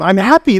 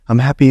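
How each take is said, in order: First: It is said energetically, with excitement. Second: It is said flatly, without energy.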